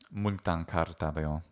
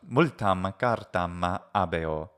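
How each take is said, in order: First: The last two words run together. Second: The last two words are kept separate. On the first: The speaker calls it right. "when it's spoken natively" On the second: The speaker calls it wrong. "some kind of weird hiatus"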